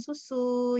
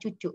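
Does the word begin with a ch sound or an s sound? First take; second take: s sound; ch sound. First: The word begins with an s sound. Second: The word begins with a ch sound. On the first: The parent models the correct word. The speaker calls it right. "Kita akan selalu mengucapkan dengan bahasa yang benar" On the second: The parent copies the child's baby talk. The speaker calls it wrong.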